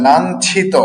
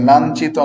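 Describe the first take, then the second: First: লাঞ্ছিত high and loud as lanchhito, breath on chh; correct aspirated chh. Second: লাঞ্ছিত loudly as lanchito, no puff on ch; wrong unaspirated ch. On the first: Teacher correcting what many say, লাঞ্ছিত with aspirated chh. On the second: Teacher rejecting the common form, লাঞ্ছিত with unaspirated ch. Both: Shown as a demonstration. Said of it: "লাঞ্ছিত নয়".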